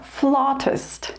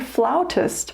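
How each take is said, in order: First: The first syllable does not sound like 'flout'. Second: The first syllable sounds like the word 'flout'. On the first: This is the usual British way of saying it. The speaker calls it right. "they pronounce it more flautist" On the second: This is the usual American way of saying it. The speaker calls it wrong. "We say flautist"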